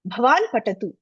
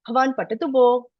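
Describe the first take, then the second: First: It is said as a firm order. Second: It is said as a polite request.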